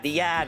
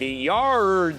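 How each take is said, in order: First: The r is dropped, in a Boston accent. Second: The r is pronounced, in a general American accent. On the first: The speaker calls it right. "it's the yad" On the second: The speaker calls it wrong. "no yad"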